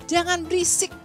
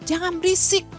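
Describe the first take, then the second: No difference in how they are said.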